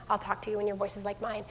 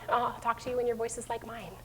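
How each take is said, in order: First: Softer and quicker, firm; calm parent voice. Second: Calm parent voice. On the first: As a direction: repeat it quietly, a bit brisk. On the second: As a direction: hush the child with calm. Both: Retold or imitated. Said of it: "like I did with Robbie".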